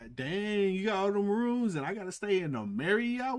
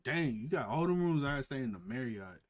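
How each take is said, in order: First: It is said in a playful, flirty tone. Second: It is said in a rude, resentful tone.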